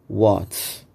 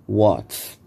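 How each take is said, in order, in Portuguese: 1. As palavras são contraídas em uma sílaba rápida. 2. As palavras são contraídas em uma sílaba rápida.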